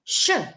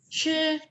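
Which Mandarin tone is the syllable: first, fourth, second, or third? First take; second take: fourth; first. First: The syllable carries the fourth tone. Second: The syllable carries the first tone. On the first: "tone keempat" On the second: "Tone pertama"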